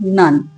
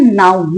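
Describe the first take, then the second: First: The syllable has the vowel of 'nun'. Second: The syllable has the vowel of 'noun'. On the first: The speaker calls it right. "नाउन नहीं है नन" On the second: The speaker calls it wrong. "आप जिसको गलत बोलते आ रहे हैं, बोलते हैं नाउन"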